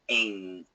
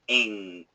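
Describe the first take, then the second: No difference in how they are said.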